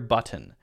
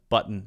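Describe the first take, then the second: First: The middle T is clearly released. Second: The middle T is a glottal stop. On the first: "a clear button" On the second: "what Americans do in those specific cases"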